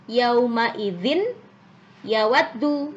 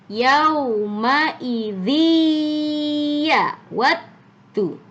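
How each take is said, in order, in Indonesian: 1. Bunyi n terdengar sebelum y. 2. Bunyi n melebur ke dalam y. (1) "bukan yauma idzin yawaddu" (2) "harus lebur ke huruf ya-nya"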